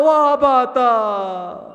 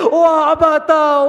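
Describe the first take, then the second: First: Put-on girl's lament trailing off; fading wail. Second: Slow, loud drawn-out wail; girl sobbing for her father; wailing lament. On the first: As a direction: let the wail fade. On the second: Acted. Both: Sakina cries for her father.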